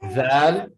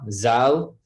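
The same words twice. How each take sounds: First: The word begins with a soft th-like sound. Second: The word begins with a buzzing z sound. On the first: The speaker calls it right. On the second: The speaker calls it wrong.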